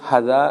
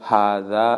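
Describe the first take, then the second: First: The first vowel is short. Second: The first vowel is long. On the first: The speaker calls it wrong. "ശരിയായ വിധത്തിൽ അത് ഹദ എന്നാണ് എല്ലാവരും വായിക്കുക. പക്ഷെ അങ്ങനെയല്ല വായിക്കേണ്ടത്" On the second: The speaker calls it right. "പിന്നെ ഹാദ എന്നാണ്"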